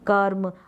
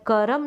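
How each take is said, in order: First: The r is a half sound with no vowel. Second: The r is followed by a full vowel. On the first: The speaker calls it right. "आधा र का sound आता है" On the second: The speaker calls it wrong. "करम नहीं बोलते"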